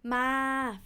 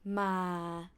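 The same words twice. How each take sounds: First: The syllable is said on a level mid pitch. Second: The syllable is said on a low pitch. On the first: It means to come. "flat tone means to come" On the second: It has no meaning. "low tone doesn't have any meaning"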